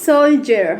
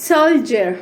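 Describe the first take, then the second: No difference in how they are said.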